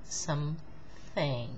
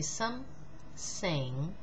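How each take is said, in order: First: The middle consonant is a th sound. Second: The middle consonant is an s sound. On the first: The speaker calls it right. "Now see how I do it" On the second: The speaker calls it wrong. "She's going to say some, sing"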